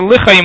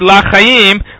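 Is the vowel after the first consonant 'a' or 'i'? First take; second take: i; a. First: The first vowel is a short 'i'. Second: The first vowel is an open 'a'. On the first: It means for life. The speaker calls it right. "but rather lichayim with a shiva" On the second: It may be heard as not for life. The speaker calls it wrong. "the problem with saying it with a kamatz or a patachani"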